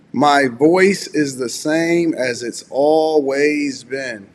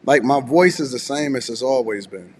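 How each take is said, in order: First: Slow, drawn-out words to show his voice; slow deliberate. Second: Said in the usual way. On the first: Shown as a demonstration. To chat doubting his voice, slow deliberate proof. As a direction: stretch each word so they can listen. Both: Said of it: "How can you hear that I've been knocked out".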